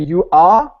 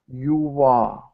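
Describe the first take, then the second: First: The words are said apart with no linking sound. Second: The words are joined by a linking w sound. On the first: "there is no linking" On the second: "if I speak slowly"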